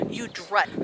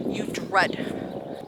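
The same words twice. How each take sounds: First: Said in the usual way. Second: Whispered, leaning on dread; hushed dread; breathy emphasis. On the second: Shown as a demonstration. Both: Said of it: "That's the word".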